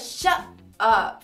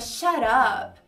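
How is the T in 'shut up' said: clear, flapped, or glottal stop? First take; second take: glottal stop; flapped. First: The T is cut off as a glottal stop. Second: The T becomes a quick R-like flap. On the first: "você interrompe o som na hora de fazer o T" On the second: "você pode transformar o T num R aí no som"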